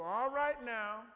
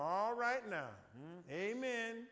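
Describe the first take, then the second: First: Slow, loud drawn-out "All right now", stretching "right"; a pointed church hint to wrap it up. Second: Drawn-out "All right now" and a slow humming "amen"; politely telling the speaker he is going too long; churchgoer's hint. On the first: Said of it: "somebody ought to go". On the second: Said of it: "When you start hearing people go". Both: Retold or imitated.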